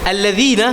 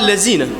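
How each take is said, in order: First: The word has a 'dh' sound, like 'this'. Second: The word has a 'z' sound instead.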